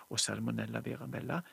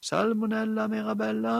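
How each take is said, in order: First: Said in the usual way. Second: Høyt, lyst rop over huset; roper. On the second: Acted. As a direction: kall på jenta med full stemme. (mor roper på datteren fra kjøkkenet, høyt og lyst) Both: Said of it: "hun ropte".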